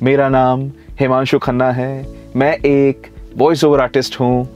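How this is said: There are robotic pauses after individual words. The speaker calls it wrong. "Word के बाद आप pause ले रहे हैं, आप बिल्कुल रोबोटिक टोन में बोल रही हैं"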